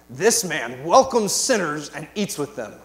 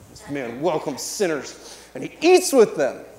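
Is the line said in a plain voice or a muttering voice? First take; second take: plain; muttering. First: It is read in a plain voice. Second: It is said in a scornful muttering voice.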